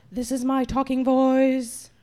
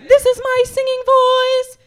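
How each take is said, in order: First: Much lower, level monotone; low intoned demo; talking voice. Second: Loud chant on one held pitch; sung, demonstrate it ringing and intoned; sustained monotone singing demo. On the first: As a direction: drop deep and stay on one note. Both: Shown as a demonstration.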